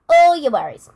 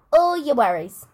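First: "All your worries" louder still, hitting "All" hard; louder emphatic repeat. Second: "All your worries" stressed on all, firm fall; emphatic repeat. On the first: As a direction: punch "All" louder to hammer the point. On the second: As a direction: press on "All" to drive it home. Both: Shown as a demonstration. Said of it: "write down all your worries".

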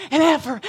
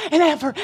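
No difference in how they are said.

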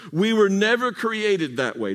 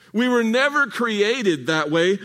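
First: Said in the usual way. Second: Never lifted and slowed; slower, weight on never; stress on never. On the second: Shown as a demonstration. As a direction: repeat it slowly, leaning on never. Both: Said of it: "Did you hear what I just said?".

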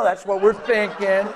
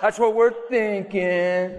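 First: Slow emphasis. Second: Laughing repeat. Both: Shown as a demonstration.

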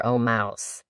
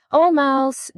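First: Dropped low and soft, trailing off; the same call, now lower and quieter; soft address. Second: High, earnest call to the mouse; a child politely calling out to a mouse; formal address. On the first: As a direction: murmur the mouse's name as an afterthought. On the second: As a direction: address the mouse grandly, pitched up. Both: Acted. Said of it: "the right way of speaking to a mouse".

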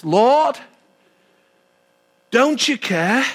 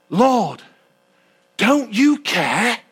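First: Said in the usual way. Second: Slow, drawn-out plea of an overworked sister; complaining Martha. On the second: Acted. Martha reproaching Jesus while serving, slow complaining plea. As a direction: stretch out the complaint to the Lord.

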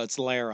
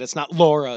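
First: "Lara" as LAH-ruh, softly corrected; corrected name. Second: "Laura" as LOR-uh, wrong; "Laura" said like the wrong name. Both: Shown as a demonstration. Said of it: "we're getting yelled at".

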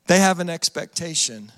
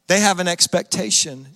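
The two takes are said the same way.

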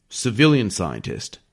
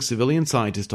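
First: Civilian stressed, slowly and pointedly. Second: Said in the usual way. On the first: Shown as a demonstration. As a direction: Civilian scientist said slowly with weight on Civilian. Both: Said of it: "Does the Army have a lot of enlisted scientists?".

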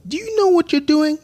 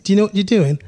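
First: Put-on high-pitched kid's British accent; cheeky British kid ribbing a grown-up, pitched high. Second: Put-on quicker British-accented tease, raised and louder. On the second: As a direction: rib him in a British accent. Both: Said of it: "I did it in a British accent".

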